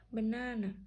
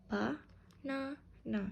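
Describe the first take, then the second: First: Said in the usual way. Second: Slow "ba-na-na" in three separate beats; syllable by syllable. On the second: Shown as a demonstration. Teacher counting three syllables, "ba-na-na" syllable by syllable. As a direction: split "ba-na-na" evenly with gaps. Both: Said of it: "Banana has three syllables".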